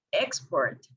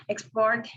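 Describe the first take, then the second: First: "export" stressed on EX; stress on first syllable. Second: "export" stressed on PORT; stress on last syllable. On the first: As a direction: say "export" as EX-port, the noun. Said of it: "the stress in the first". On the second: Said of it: "stressing in last syllable". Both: Shown as a demonstration.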